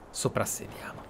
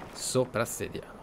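Both takes have the same delivery.

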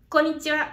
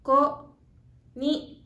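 First: Quick, natural konnichiwa; "Konnichiwa" run together fast, as in everyday speech; at normal speed. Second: Slow, drawn-out konnichiwa; "Konnichiwa" spoken slowly, syllable by syllable, as a teacher models it; slower. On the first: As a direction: say "Konnichiwa" at an ordinary quick pace. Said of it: "It's a little fast". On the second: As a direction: stretch out each syllable of "Konnichiwa" for learners. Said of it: "Let's say it a little slower". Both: Shown as a demonstration.

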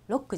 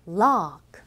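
First: ロック clipped short; short vowel, wrong take. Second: ロック with the vowel held long and loud. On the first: Teacher showing the wrong short version. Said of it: "ロックじゃないですね". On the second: Teacher showing the long vowel in rock. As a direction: stretch the o in ロック. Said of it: "長いです". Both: Shown as a demonstration.

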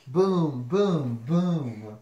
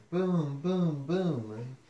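First: Loud, separate booms; thunder booms. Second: Milder rolling booms; thunder booms. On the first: Reader imitates thunder for the listener, booming. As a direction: boom it out like thunder. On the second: Reader imitates thunder with milder booming. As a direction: boom without full force. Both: Acted. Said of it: "Mister Brown makes thunder".

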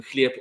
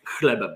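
First: "chlieb" with a softened l gliding into the e; Eastern Slavic pronunciation. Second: Said in the usual way. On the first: Shown as a demonstration. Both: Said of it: "nauczyć się prawidłowej wymowy".

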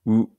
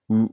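First: Said in the usual way. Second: Unrounded う, lips pulled wide; う with spread lips. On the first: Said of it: "口を横に広げて". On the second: Shown as a demonstration. Learner sounding out Korean vowels, う with lips spread wide. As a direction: say う with the mouth stretched sideways. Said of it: "口を横に広げて、うを発音する感じ".

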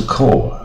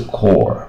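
First: CORE as plain "koh", no curled r; higher "core", the r left out; mistaken vowel without r-colour. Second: Slow CORE with a clear r at the end; drawn-out "core", r-coloured; curled-tongue r. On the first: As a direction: say "core" the wrong way, without curling the tongue. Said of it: "不是core". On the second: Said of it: "而且是卷舌的or". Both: Shown as a demonstration.

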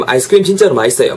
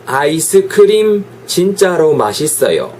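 First: 아이스크림 진짜로 맛있어요 fast as one chunk; linked, run together. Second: 아이스크림, 진짜로, 맛있어요 spaced out slowly; separated words. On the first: Teacher shows natural liaison, quick and linked. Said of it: "막 이런 식으로 연음이 되는 것처럼". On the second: Teacher illustrates Korean phrasing, slow and separated. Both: Shown as a demonstration.

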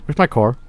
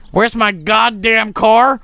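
First: Said in the usual way. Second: Higher, slow, drawn-out mock outrage; exasperated demand. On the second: Player searching for the lost car, exasperated demand. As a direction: stretch it out, rising to an indignant question.

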